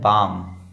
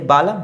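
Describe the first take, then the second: First: The L sound is silent. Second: The L sound is pronounced. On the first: The speaker calls it right. "ये है बाम" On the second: The speaker calls it wrong. "नहीं"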